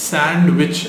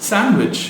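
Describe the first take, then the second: First: சாண்ட்விச் with the d sounded; mispronounced sandwich. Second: சாண்ட்விச் as SAN-wich, first syllable high; silent d. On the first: Teacher quoting the common error, mispronounced. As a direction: say சாண்ட்விச் as SAND-wich. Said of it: "which is wrong". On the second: Teacher modelling the silent letter, silent d. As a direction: say சாண்ட்விச் without any d. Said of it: "அதுல இருக்கிற டி வந்து silent". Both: Shown as a demonstration.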